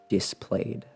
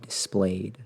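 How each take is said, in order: First: The stress falls on an unusual syllable. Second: The stress falls on the usual syllable. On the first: The speaker calls it wrong. "I have never in my life heard someone put the stress on that word like that before" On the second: The speaker calls it right. "Instead of"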